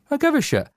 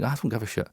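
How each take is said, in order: First: Jumps much higher, mock eager; suddenly caring, pitch leaps up; mock sudden interest. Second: Muttered, much softer, shrugging it off; a quiet throwaway I don't care; dismissive. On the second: Retold or imitated. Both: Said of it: "you're like".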